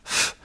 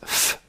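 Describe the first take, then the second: No difference in how they are said.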